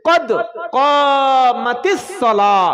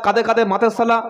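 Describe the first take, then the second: First: The phrase begins with the syllables 'qad qamat'. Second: The phrase begins with the syllables 'kandhe kandhe'. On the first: The speaker calls it right. "নবী সাল্লাল্লাহু শিখেছেন" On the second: The speaker calls it wrong. "কোথায় ভুল বলেছি জানিস?"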